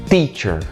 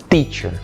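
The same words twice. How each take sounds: Both takes have the same delivery.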